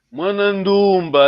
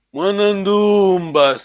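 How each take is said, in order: First: Said in the usual way. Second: Mwanandumba with the vowels held long and slow; long drawn vowels. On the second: Shown as a demonstration. Teacher drawing out Mwanandumba's long vowels for the student. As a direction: stretch every vowel of Mwanandumba slowly. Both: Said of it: "attention, la voix est longue".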